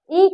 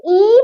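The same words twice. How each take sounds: First: ई said short and relaxed; a brief ई, not drawn out; short easy i. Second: ई stretched out long; long drawn-out i. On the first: Teacher showing the small vowel, ई kept short. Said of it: "आराम से बोला जाता है". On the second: Teacher showing the big vowel, ई drawn out. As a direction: hold the vowel ई for extra time. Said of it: "लंबा खिंचता है". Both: Shown as a demonstration.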